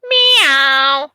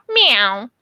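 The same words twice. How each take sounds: First: A louder imitated meow, like the budgie; bird's meow. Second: A light imitated meow; cat meow. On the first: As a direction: mimic the budgie's cat meow with more push. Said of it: "Same exact sound as Max Midnight". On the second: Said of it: "your cat goes".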